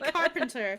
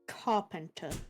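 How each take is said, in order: First: The word is said in a plain accent. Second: The word is said in a posh accent. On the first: The speaker calls it right. "I was gonna say it normally" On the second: The speaker calls it wrong. "it came out posh"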